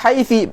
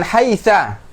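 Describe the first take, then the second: First: The word ends in an i vowel. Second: The word ends in an a vowel. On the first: Still other Arabs always say it this way. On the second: Other Arabs always say it this way.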